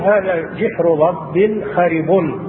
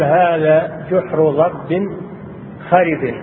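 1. الكلمة الأخيرة تنتهي بالضمة. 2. الكلمة الأخيرة تنتهي بالكسرة. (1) "كان الواجب أن يقول" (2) "أجروا عليه الجر مثل المجاور له"

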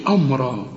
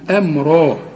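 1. الحركة الأولى ثقيلة ومفخمة. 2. الحركة الأولى خفيفة، مش مفخمة. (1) "لكن ما تقولش أمرا" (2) "الهمزة في القرآن دائما مرققة والميم كمان مرققة"

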